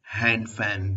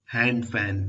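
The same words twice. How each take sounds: The two takes are said the same way.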